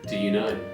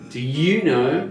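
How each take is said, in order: First: The word 'you' is short, said normally. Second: The word 'you' is drawn out, like Dumbledore.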